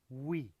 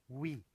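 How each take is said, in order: The two takes are said the same way.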